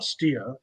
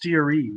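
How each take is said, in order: First: The name is said as one syllable. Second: The name is said as two syllables. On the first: The speaker calls it wrong. "It's not steer" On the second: The speaker calls it right. "it's steery"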